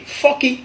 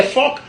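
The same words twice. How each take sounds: First: "forky" with an added final i; Godié pronunciation. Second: "fork" in one syllable; English pronunciation. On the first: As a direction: open it out as fo-ki. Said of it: "en gaudier". (« forky » à la godié, prononcé fo-ki) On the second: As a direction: end "fork" on the k. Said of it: "pardon, en anglais". (« fork » à l'anglaise, finissant sur k) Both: Shown as a demonstration.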